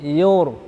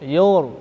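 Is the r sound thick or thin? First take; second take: thick; thick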